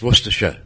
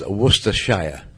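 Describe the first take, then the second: First: Several syllables are dropped and shortened. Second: Every written syllable is pronounced. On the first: The speaker calls it right. "It's Worcestershire" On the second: The speaker calls it wrong. "there is no such thing as Worcestershire"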